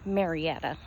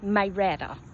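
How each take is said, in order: First: It is said with the standard pronunciation. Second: It is said with a local Southern pronunciation.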